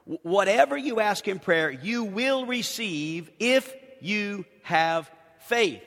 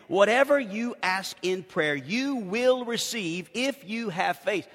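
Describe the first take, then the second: First: "if you have faith" drawn out slowly; stress on the condition. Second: "if" leaned on, the phrase slowed; slow down and land on "if"; stress on IF. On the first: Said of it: "recognize the condition". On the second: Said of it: "let me read that again". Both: Shown as a demonstration.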